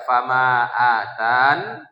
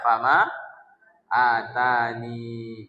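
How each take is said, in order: First: The last word ends in a silent n. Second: The last word ends in a vowel after n. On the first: The reader stops at this word. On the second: The reader carries on without stopping.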